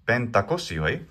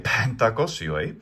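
First: The first p is plain, without a puff. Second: The first p is aspirated, with a puff.

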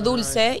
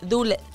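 First: The c is said as a plain s sound. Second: The c is said with the tongue between teeth. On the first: This is how the speaker's own region says it. "yo digo dulce" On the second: This is how a person from Alicante says it. "ella dice dulce. Como... Que saca la lengua hasta acá"

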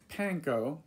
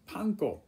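First: It is said with an American pronunciation. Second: It is said with a Japanese pronunciation. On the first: The speaker calls it wrong. "it's not panko. It might look like that to an Englishman or an American" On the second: The speaker calls it right. "but it's panko"

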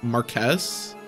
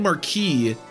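First: The title is pronounced as it is spelled. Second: The title is not pronounced as it is spelled. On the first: The speaker calls it right. "it's pronounced like it's spelled" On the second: The speaker calls it wrong. "I keep saying Marquis"

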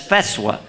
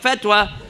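First: The middle consonant is a soft s-like sound. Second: The middle consonant is a plain t sound. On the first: The speaker calls it right. "That's feswa" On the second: The speaker calls it wrong. "you're mispronouncing that"

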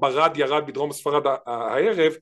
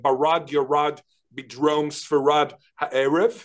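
First: The r sounds are the usual Israeli throaty r. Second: The r sounds are American-style retroflex r. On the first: This is the normal local pronunciation. "במקום" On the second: The speaker has been influenced by American English. "בעקבות האמריקאית הוא אומר"

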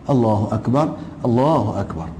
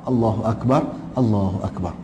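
Both takes have the same delivery.

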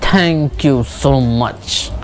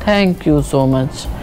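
First: It sounds harsh and irritated. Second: It sounds low and downcast. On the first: The speaker is annoyed. "तो एक angry वाला tone आया" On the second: The speaker is unhappy. "एक sad tone आया"

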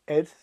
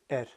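First: The word ends with a soft th sound. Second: The word ends with a plain t sound. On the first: "Sometimes you'll hear a TH sound on them" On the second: "I say et"

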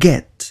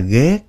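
First: It is said as the English word get. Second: It is said like the Vietnamese word ghét. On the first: The speaker calls it right. "cái chữ get là g" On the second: The speaker calls it wrong. "Không phải là ghét nha"

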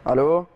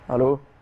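First: It is said louder, with a raised voice. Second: It is said at a normal, softer volume.

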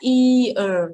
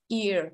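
First: The word is drawn out slowly. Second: The word is said quickly. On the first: "phiên bản chậm sẽ là ear" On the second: "Còn phiên bản nhanh hơn ear"

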